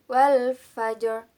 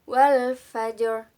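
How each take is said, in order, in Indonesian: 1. Bunyi r-nya tebal, di akhir kata. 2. Bunyi r-nya tebal, di akhir kata.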